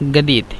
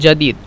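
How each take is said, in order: First: The first sound is a hard g, Cairo style. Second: The first sound is a j sound.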